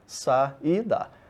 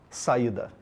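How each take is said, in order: First: The word is broken into separate syllables. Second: The word is said smoothly in one piece.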